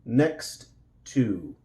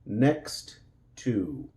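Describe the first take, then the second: Both takes have the same delivery.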